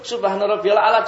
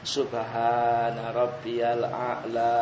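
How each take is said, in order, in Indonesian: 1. Frasa ini dibaca sangat cepat dan tergesa-gesa. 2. Frasa ini dibaca pelan dan tenang. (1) "cuma sekali, tok, cepat sekali lagi. Nah, jangan begitu" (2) "tetap harus dengan tenang"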